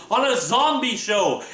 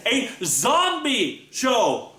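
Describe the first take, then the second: First: Said in the usual way. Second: Very slow, stretched "zombie show"; incredulous emphasis. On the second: Real, not acted. Amazed son stressing his parents love a zombie show, slow stretched emphasis. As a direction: drag out "A zombie show!" in disbelief.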